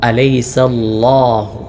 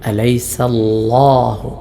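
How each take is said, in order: The two takes are said the same way.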